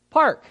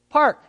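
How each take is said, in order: First: High, loud "Park." with a hard P; mock correction. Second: "Park." high and loud, as they would say it; imitating their "Park.". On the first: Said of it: "you're like". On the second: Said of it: "And they say it".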